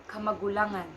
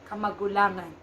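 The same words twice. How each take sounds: The two takes are said the same way.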